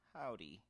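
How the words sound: It is said in a sad, sorrowful tone. The character is feeling sorrow.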